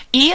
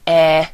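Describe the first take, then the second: First: Said in the usual way. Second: E said "eh" as in egg; e with the vowel of egg, not "ee"; Spanish E. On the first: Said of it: "E in Spanish is like". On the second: Shown as a demonstration. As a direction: say e as a short, pure "eh". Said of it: "like the E in egg".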